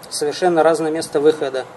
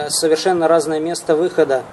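Both takes have the same delivery.

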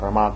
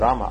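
First: The stress is on the last syllable. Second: The stress is on the first syllable. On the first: The speaker calls it right. "Акцент именно на последнем слоге Рама" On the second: The speaker calls it wrong. "не Рама"

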